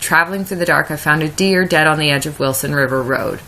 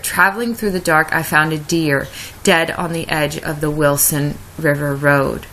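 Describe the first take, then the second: First: The lines run together without a break. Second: There is a pause at the line break.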